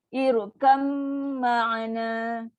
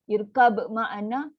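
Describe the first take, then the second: First: The b merges into a long nasal m. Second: The b is heard with an echoing bounce. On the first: The speaker calls it right. "masuk dan dengung. Settlekan dengung yang paling panjang" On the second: The speaker calls it wrong. "dia akan melantun untuk qalqalah"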